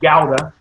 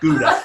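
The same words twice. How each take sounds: First: The word is pronounced the Dutch way. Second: The word is pronounced the English way. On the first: The speaker calls it right. "that is the correct pronunciation in Dutch" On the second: The speaker calls it wrong. "not Gouda"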